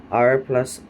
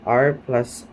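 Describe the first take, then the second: Both takes have the same delivery.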